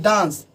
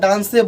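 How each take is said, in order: First: The word ends on the 's' consonant. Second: The word ends with an added 'e' vowel. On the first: The speaker calls it right. "इसका उच्चारण जो करेंगे वो डांस के तरह" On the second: The speaker calls it wrong. "डांसी या डांसे बोलेंगे तो वो गलत हो जाएगा"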